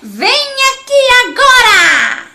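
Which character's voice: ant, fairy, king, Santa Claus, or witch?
witch. It is said like a cackling witch.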